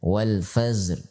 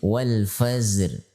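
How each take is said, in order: Both takes have the same delivery.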